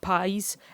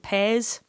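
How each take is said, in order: First: It is said with a standard English vowel. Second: It is said with a Dundee 'eh' vowel.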